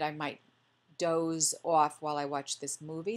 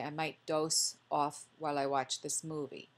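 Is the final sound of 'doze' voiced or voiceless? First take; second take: voiced; voiceless. First: The last sound of 'doze' is voiced, like z. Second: The last sound of 'doze' is voiceless, like s.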